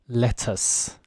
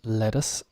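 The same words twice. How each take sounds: First: The middle T is strong and crisp. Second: The middle T is soft, almost like a D. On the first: "a U K person could say lettuce, the stronger T" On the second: "very American way of pronouncing the T's, very soft"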